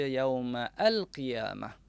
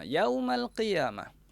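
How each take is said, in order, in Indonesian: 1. Kata kedua dimulai secara terpisah dengan vokal baru. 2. Kedua kata itu menyambung tanpa jeda.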